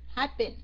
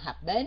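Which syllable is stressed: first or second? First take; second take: first; second. First: The stress is on the first syllable. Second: The stress is on the second syllable. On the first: The speaker calls it right. "Nhấn âm 1 luôn" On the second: The speaker calls it wrong. "Mình đâu có nói là happen đâu"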